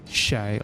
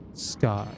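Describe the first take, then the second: First: The word begins with an 'sh' sound. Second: The word begins with an 'sk' sound. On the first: The speaker calls it right. "It's like shay, like shale or something like that" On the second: The speaker calls it wrong. "It's actually not scar"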